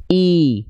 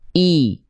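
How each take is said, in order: First: The vowel sounds like a clear, high i. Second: The same.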